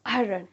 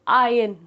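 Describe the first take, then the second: First: A slight r sound is heard in it. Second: The r is silent, with no r sound. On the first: "हल्का सा र का sound आ जाता है" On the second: "इसमें आर silent होता है"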